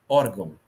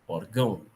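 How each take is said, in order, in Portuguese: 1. A tônica está na primeira sílaba. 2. A tônica está na última sílaba. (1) "Se ela fosse paroxítona" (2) "E se ela fosse oxítona"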